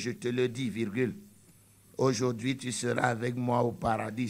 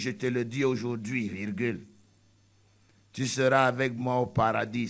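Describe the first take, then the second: First: The break comes before 'aujourd'hui'. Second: The break comes after 'aujourd'hui'.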